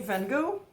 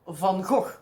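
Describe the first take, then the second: First: The g sounds are soft, not throaty. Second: The g sounds are harsh and throaty. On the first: The speaker calls it wrong. "you don't say Van Gogh" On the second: The speaker calls it right. "it is Van Gogh. The sound you need to be, have a little bit more"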